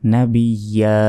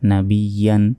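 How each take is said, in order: First: The word ends on a vowel, no n. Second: The word ends with an n sound. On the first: The reader stops at this word. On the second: The reader continues without stopping.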